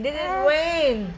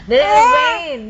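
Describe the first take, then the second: First: Hushed gentle follow-up; soft repeat. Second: "Did it rain?" pitched high and louder; keen questioning up high; eager coaxing. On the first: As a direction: ask it again quietly, close. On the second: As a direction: lift the question up high and bright. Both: Real, not acted. Coaxing child to tell story.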